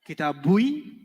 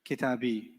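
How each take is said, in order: First: A 'u' sound comes before the final 'i'. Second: The word ends in a plain 'i' sound. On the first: The speaker calls it wrong. "Kitabui sounded bad" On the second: The speaker calls it right. "can we just make this nicer"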